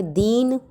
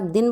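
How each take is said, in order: First: दीन with a long, drawn-out ee. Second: दिन with a short i. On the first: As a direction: say दीन holding the ee. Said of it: "तो बड़ी ई की मात्रा". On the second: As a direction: say दिन with a brief, unstretched i. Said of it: "छोटी ई की मात्रा". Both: Shown as a demonstration.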